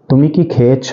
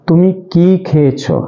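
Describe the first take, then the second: First: The vowel in 'ki' is said short and quick. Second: The vowel in 'ki' is drawn out longer. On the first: It asks whether one has eaten. "এর উচ্চারণটা তুলনামূলকভাবে একটু তাড়াতাড়ি হবে" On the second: It asks what was eaten. "এর উচ্চারণ একটু দীর্ঘ হবে"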